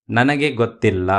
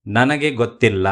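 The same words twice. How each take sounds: The two takes are said the same way.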